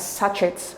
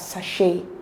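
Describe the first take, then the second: First: The middle consonant is a ch sound. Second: The middle consonant is an sh sound. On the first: The speaker calls it wrong. "Oftentimes we pronounce it as sachet, but that's not the correct pronunciation" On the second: The speaker calls it right. "It is pronounced as sachet. So instead of the ch sound, we have the sh"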